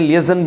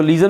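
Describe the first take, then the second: First: लिएजन said lee-AY-zun, with an added e vowel; alternative pronunciation. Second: लीजन said LEE-zun, long ee and no extra vowel; two-syllable pronunciation. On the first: Teacher showing students the other reading, लिएजन as li-e-zun. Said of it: "लिएजन भी पढ़ते हैं". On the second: Teacher showing students one accepted reading, लीजन as LEE-zun. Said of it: "इसको लीजन भी पढ़ते हैं". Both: Shown as a demonstration.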